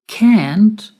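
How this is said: It is said with an American accent. "the pronunciation in American English"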